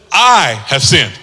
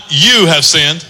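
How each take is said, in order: First: "I" pressed down, low and slow; stress on I. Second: "you" marked as the blaming version; stress on you. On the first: Preacher shows the son owning his sin, stress on "I". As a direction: lean on "I" to own it. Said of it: "Notice he says". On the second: Preacher contrasts blaming others, stress on "you". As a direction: put the weight on "you". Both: Shown as a demonstration.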